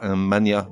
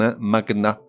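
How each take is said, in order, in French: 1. Le G et le N fusionnent en un seul son 'ny'. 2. Le G et le N sont prononcés comme deux sons séparés. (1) "et non pas un mania de la presse" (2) "certains mots se prononcent avec le G séparé du N, comme un magna"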